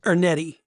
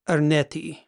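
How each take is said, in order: First: The name is pronounced with a folksy Oklahoma accent. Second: The name is pronounced carefully, in its original style. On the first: "in the Okie vernacular" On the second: "let me see if I can pronounce this correctly"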